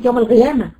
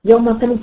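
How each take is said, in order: First: القيامة with a gargled gh replacing q; qaf as ghain. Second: Said in the usual way. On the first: Shown as a demonstration. Teacher showing a dialect error in recitation, qaf as ghain. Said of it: "وبعض البلدان ينطقها غين". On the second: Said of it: "يعني يغير المعنى تمامًا".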